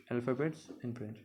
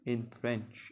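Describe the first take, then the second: First: Slow careful repeat. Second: Said in the usual way. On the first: Shown as a demonstration.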